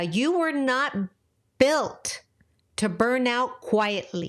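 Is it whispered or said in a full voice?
full voice. It is said in a full, normal voice.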